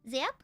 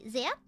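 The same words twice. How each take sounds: First: The word begins with a z sound. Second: The word begins with a z sound.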